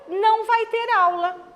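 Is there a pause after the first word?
no. It is said without a pause after não.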